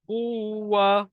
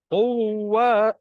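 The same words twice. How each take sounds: First: The u vowel is drawn out long. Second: The w sound is doubled, not lengthened. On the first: The speaker calls it wrong. "Kita kena panjang ke? ... bukan macam tu" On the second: The speaker calls it right. "huruf mati bertemu dengan huruf hidup"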